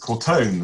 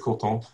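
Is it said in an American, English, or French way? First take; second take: American; French. First: The second syllable sounds like "tone", American style. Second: Both syllables get equal stress, French style.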